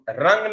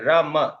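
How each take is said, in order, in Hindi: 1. इस अक्षर का अंत ng ध्वनि से होता है। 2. इस अक्षर का अंत m ध्वनि से होता है। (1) "रंग नहीं बोलते हैं" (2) "संस्कृत में अंक की मात्रा को म उच्चारण किया जाता है"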